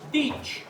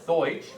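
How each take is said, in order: First: The vowel sounds like 'eye' in 'bite'. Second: The vowel sounds like 'oy' in 'boy'. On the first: This is the Alsatian dialect form. "the Alsatians pronounce it Deitsch" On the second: This is the standard German form. "the proper German pronunciation for German in German is Deutsch"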